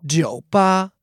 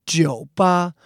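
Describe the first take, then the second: First: Jiu ba with dipping third tone on jiu; tone demo. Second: Jiu ba again, dipping jiu then level ba; tone demo repeated. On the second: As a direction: repeat jiu ba with careful tones. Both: Shown as a demonstration. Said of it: "Jiu is third tone, the falling rising tone".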